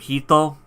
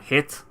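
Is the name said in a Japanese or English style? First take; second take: Japanese; English. First: It is said as a two-syllable Japanese-style name. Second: It is said as the one-syllable English word. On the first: The speaker calls it wrong. "can we just stop fucking calling him Hito" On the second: The speaker calls it right. "just call him Hit"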